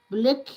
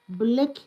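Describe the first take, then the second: The two takes are said the same way.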